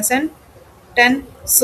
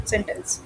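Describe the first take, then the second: First: "सेंटेंस" broken up as sen, ten, s; "सेंटेंस" said piece by piece, pausing after each syllable; split into syllables. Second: Said in the usual way. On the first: Shown as a demonstration. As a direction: slowly count out the parts of "सेंटेंस" with gaps. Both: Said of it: "कितने syllable हैं?".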